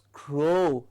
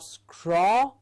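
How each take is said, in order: First: The vowel sounds like 'oh'. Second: The vowel sounds like 'aw'. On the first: The speaker calls it right. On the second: The speaker calls it wrong. "it is not scraw"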